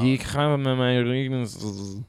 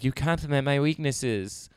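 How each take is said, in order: First: It sounds heavily drunk and slurred. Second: It sounds only mildly drunk.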